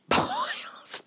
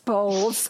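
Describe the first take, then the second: First: Laughs out the name high in her voice; laughing name slip. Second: Said in the usual way. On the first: Real, not acted. Catching her own slip on the actor's name, laughing. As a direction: giggle through the slipped name Bowles. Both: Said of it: "you keep calling him Boyles".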